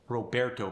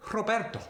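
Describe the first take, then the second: First: Said in the usual way. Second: Roberto with a rolled R, much higher; Spanish accent. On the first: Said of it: "Roberto becomes". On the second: Shown as a demonstration. Teacher demonstrating rolled R, Spanish accent. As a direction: roll the R in Roberto. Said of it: "it gets a slight roll to it".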